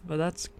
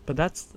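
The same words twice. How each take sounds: The two takes are said the same way.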